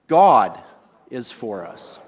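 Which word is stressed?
God. The stress is on the word God.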